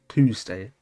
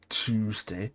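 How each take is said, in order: First: It begins with a clear t sound. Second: It begins with a ch sound. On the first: "because I actually pronounce the T" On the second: "I don't say Tuesday"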